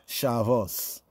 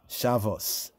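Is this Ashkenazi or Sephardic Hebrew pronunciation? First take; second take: Ashkenazi; Ashkenazi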